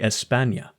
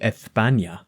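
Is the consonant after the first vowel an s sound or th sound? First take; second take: s; th. First: The s is pronounced as a plain s. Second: The s is pronounced as a th sound. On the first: The speaker calls it right. "they say" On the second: The speaker calls it wrong. "They don't say"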